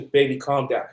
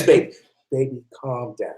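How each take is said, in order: First: Said in the usual way. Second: Calm him down gently, nearly a hush; soothing hush. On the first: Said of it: "she just holds you". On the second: Retold or imitated. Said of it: "She says".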